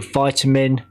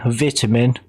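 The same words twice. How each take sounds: First: It is said in an American accent. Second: It is said in a British accent. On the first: "You Americans say vitamin" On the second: "as Brits we say vitamin"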